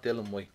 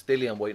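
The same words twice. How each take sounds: First: Dylan said as two syllables, Dyl-an; the wrong Dylan, quieter and dismissive; wrong name Dylan. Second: Dillian said with a clear three-syllable Dil-li-an; insisting on Dillian, not Dylan; correct name Dillian. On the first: Boxer rejecting the misnamed Dylan, mildly imitated. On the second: Boxer correcting an interviewer, Dillian spelled out in sound. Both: Retold or imitated. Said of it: "He says".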